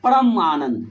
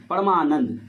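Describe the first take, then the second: First: "परम आनंद" said as two words with a break between them, loud; split apart. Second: "Parmanand" run together as one word with a long aa; joined up. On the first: Teacher showing students the split words aloud. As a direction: say "परम" and "Anand" separately, with a clear gap. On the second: Teacher showing students the joined sandhi word. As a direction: blend "Parmanand" smoothly, no gap. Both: Shown as a demonstration. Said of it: "तो इसका हम उच्चारण करेंगे".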